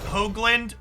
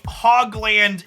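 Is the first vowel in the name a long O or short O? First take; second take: long O; short O. First: The first vowel is a long O sound. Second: The first vowel is a short O sound. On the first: This is the real pronunciation of the name. "my last name is pronounced Hoagland with a long O" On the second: It is a self-deprecating joke after bad luck. "I say Hogland in a self-deprecating way"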